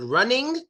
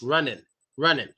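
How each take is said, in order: First: "running" ending in a full ING. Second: "running" said as "runnin"; dropped G. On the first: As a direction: sound the whole NG in "running". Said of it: "We don't pronounce N G". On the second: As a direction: end "running" on a plain N. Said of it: "We only pronounce the N". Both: Shown as a demonstration.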